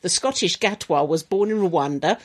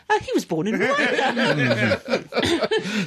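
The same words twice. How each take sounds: First: Said in the usual way. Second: Slow, cheery, breezy tone; jolly and light. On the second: Shown as a demonstration. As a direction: say it brightly like good news. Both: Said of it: "don't say that sentence with a".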